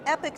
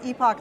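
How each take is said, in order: First: The second syllable sounds like 'ick'. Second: The second syllable sounds like 'ock'. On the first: The speaker calls it wrong. "A lot of people say" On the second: The speaker calls it right. "the correct pronunciation is"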